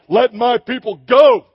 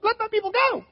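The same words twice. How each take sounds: First: Louder, epic-hero delivery of let my people go; booming movie Moses. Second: Far higher, thin and timid let my people go; weak, squeaky Moses pleading with Pharaoh; mousy high voice. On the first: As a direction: declaim it like a big Hollywood leading man. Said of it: "it did not sound like". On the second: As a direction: squeak it out like a meek little man. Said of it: "It was probably more like". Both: Retold or imitated.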